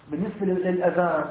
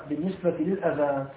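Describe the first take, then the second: The two takes are said the same way.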